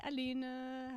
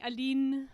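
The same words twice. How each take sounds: First: Said in the usual way. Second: Aline said the French way, stress on the last syllable; French accent. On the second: Shown as a demonstration. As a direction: call out Aline with a light French accent, louder. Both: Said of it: "I've gotta get the French accent right".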